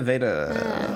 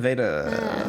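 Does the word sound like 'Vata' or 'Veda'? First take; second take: Veda; Veda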